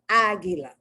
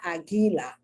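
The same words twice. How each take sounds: First: The stress is on the first syllable. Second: The stress is not on the first syllable. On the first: The speaker calls it right. "The first A is Aguila. ... that first A is stressed" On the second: The speaker calls it wrong. "It's not Aguila"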